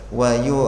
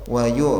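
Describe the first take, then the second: No difference in how they are said.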